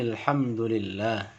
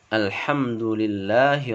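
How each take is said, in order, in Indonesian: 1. Ia menyambung dengan kata sebelumnya tanpa 'a'. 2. Dimulai dengan bunyi 'a' yang jelas. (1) "maka hamzah wasalnya tidak dibaca" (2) "A-nya jadi berbaris fathah"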